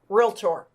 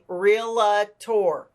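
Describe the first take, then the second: First: No extra vowel sound comes before the final syllable. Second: An extra vowel sound comes before the final syllable. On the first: The speaker calls it right. "pronouncing it correctly as it should be, realtor. No A in it" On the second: The speaker calls it wrong. "How many times have you heard people say realtor?"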